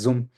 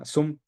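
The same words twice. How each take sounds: First: It begins with a voiced buzzing z sound. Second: It begins with a voiceless hissing s sound. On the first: This is the English way of saying it. "En inglés le dicen Zoom. Es una Z" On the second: This is the Spanish way of saying it. "se le llama Zoom con S"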